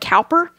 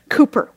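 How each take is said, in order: First: The first syllable sounds like 'cow'. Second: The first syllable sounds like 'coo'. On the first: This is how the spelling suggests it is read. The speaker calls it wrong. "It looks like Cowper" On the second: This is how it is pronounced in England. The speaker calls it right. "in England they pronounce that Cooper"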